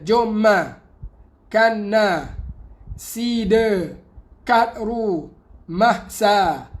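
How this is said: Syllables are split off and joined to neighbouring words.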